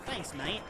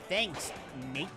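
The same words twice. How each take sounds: First: The final T of mate is soft and unreleased. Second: The final T of mate is crisp and clearly released. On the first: "the stereotypes that Australians say" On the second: "with an enunciated T. ... Like that"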